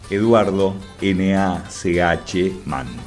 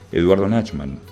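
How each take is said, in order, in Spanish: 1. El nombre se dice despacio y con calma. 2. El nombre se dice a un ritmo normal.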